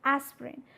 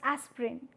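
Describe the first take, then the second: First: The middle vowel is dropped, giving two syllables. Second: The same.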